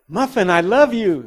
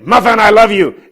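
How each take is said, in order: First: It is said in a lively, excited tone. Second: It is said in a harsh, angry tone. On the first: The listener becomes thrilled. "she would really get excited" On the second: The listener feels threatened. "she tucks her tail and runs"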